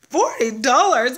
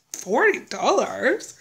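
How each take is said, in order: First: Louder, slow "Forty dollars?" falling with glee; louder falling "Forty dollars?" full of relief; delighted exclamation. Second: Slow, rising "Forty dollars?" asked in disbelief; slow doubtful "Forty dollars?" rising at the end; unsure question. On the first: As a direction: land "Forty dollars?" as happy news. Retold delight at a low bill. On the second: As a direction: drag out "Forty dollars?" as if you misheard it. Retold disbelief at a low bill. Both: Retold or imitated.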